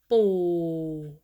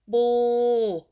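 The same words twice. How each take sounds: First: The pitch stays low. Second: The pitch stays level in the middle. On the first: "low tone" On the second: "Start with middle tone"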